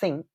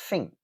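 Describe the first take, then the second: First: The word begins with a th sound. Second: The word begins with an f sound. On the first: "Instead of saying think" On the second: "You can replace it with a f, an f sound"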